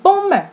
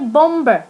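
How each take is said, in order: First: No b sound is heard in the middle. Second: A b sound is heard in the middle. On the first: The speaker calls it right. "We say bomber" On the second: The speaker calls it wrong. "We don't say bomber"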